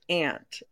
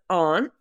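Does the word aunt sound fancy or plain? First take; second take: plain; fancy. First: The word is said in a plain, everyday way. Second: The word is said in a fancy-sounding way. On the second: "They're very fancy"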